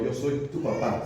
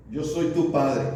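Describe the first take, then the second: First: Slower, fond "Yo soy tu papá"; tender father. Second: Said in the usual way. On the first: Shown as a demonstration. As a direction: say "papá" like a loving dad, unhurried. (con ternura de papá, despacio) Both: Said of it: "¿Se entiende la diferencia?".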